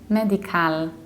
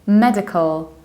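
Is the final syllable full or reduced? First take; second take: full; reduced. First: The final syllable is said in full. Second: The final syllable is reduced. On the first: The speaker calls it wrong. "I usually hear medical ... we don't say cal" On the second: The speaker calls it right. "we need to reduce its ending, so we say medical"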